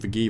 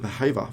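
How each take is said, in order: First: The middle consonant is a hard g sound. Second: The middle consonant is an h sound. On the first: The speaker calls it wrong. "Should actually stop calling him Vagiva" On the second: The speaker calls it right. "It's actually all the correct way to pronounce it"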